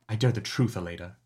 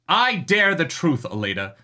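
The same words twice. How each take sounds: First: The line is said quietly. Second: The line is yelled loudly.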